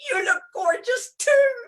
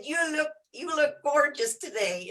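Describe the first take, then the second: First: Very high, loud playful squeal; mock gushing. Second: Lightly imitated Texan; Texan accent. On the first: Retelling her comeback to the big Texan, mock gushing. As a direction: throw the compliment back in a high, hammed-up voice. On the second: Retelling a big Texan's compliment, mock Texan accent. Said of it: "in his Texas act".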